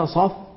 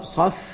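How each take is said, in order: First: The f has little audible breath. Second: The f has strong audible breath. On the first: The speaker calls it wrong. "أعدمت همسه" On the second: The speaker calls it right. "والصواب ... شوف كيف الهمس يسمعه اللي هناك"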